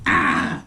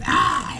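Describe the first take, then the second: First: Deep, growled ah noise; low crazy groan. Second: Breathless, unvoiced crazy noise; whispered strangled ah. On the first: Retold or imitated. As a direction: drop low into a strange groan. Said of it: "It be, like, crazy sounding". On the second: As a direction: push out an airy strangled ah. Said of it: "he make this noise".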